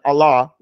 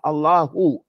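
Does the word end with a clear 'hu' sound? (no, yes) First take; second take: no; yes. First: The word ends without any final h sound. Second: The word ends with a clear final hu sound. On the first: The speaker calls it wrong. "We're just saying Allah with no ha or anything" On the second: The speaker calls it right. "So say Allahu Ta'ala"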